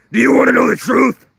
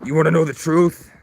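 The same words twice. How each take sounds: First: Very high, full-force shouted question; screamed challenge. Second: Loud, higher confronting question; raised-voice challenge. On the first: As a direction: scream the demand at full volume. Acted confrontation, repeated as a shout. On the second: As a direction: demand it with a raised voice. Acted confrontation, first of two takes. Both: Acted.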